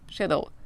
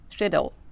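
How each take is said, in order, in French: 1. Il est prononcé avec un accent britannique. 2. Il est prononcé avec un accent britannique.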